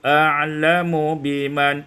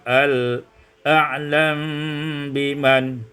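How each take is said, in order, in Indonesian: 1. Huruf m diikuti vokal u. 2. Huruf m tidak bervokal dan menyatu dengan b.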